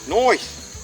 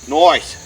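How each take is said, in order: First: It is said in an imitated British accent. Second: It is said in the speaker's own American accent.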